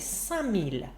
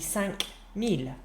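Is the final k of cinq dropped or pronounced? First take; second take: dropped; pronounced. First: The k of cinq is dropped before mille. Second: The k of cinq is pronounced before mille. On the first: The speaker calls it right. "so we say" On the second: The speaker calls it wrong. "there's too much of a little stop there"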